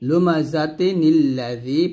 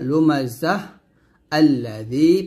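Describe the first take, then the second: First: The words run together without a stop. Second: The first word stops before the second begins.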